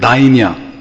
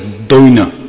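First: The first syllable sounds like 'dai'. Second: The first syllable sounds like 'doi'.

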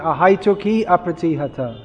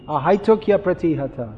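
First: The two words are said separately, vowel against vowel. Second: The words flow together with a linking y sound. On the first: The speaker calls it wrong. "You're chanting ahaituki apratihata" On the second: The speaker calls it right. "it should be ahaituk yapratihata"

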